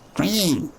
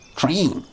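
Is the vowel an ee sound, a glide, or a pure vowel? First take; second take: ee sound; ee sound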